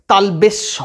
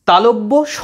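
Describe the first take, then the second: First: তালবেশ said as "talbesh", the mistaken way; teacher mimics the common wrong তালবেশ. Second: তালব্য said clearly as "talobbo", the right way; teacher models the correct তালব্য স. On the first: Teacher warns students against saying "talbesh". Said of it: "তালবেশ স এরকম কিছু নয়।". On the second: Teacher shows students the correct "talobbo sh". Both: Shown as a demonstration.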